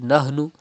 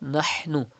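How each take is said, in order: First: Nahnu with a plain English h; wrong light h. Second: Nahnu with a raspy ha from mid throat. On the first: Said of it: "Do not read nahnu". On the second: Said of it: "Pronounce ha from the middle part of your throat". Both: Shown as a demonstration.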